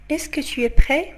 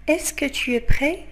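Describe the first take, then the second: No difference in how they are said.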